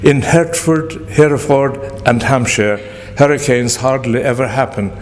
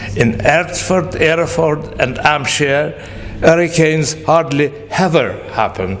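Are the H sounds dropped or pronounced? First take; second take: pronounced; dropped. First: The H sounds at word starts are pronounced. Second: The H sounds are dropped except before ever. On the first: "pronouncing every, everything perfectly" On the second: "The only H she can aspirate and pronounce properly is ever"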